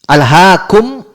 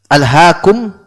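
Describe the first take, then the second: The two takes are said the same way.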